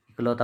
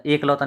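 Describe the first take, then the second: First: इकलौता starting on short i, "ik-lauta"; corrected form. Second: एकलौता starting on a long "e", "ek-lauta"; wrong form. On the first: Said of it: "इकलौता होता है". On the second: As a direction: open एकलौता with "ek". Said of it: "एकलौता नहीं होता". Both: Shown as a demonstration.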